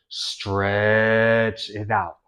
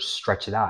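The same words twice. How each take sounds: First: The words are drawn out and elongated. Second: The words are said at normal length. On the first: "I could go" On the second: "if I say the word"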